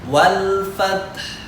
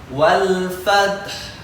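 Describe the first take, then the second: The two takes are said the same way.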